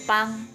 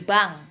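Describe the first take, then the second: First: It begins with a sound like 'p'. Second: It begins with a plain 'b' sound. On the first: The speaker calls it right. "tapi pang ya" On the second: The speaker calls it wrong. "tidak boleh dibaca sebagai bang"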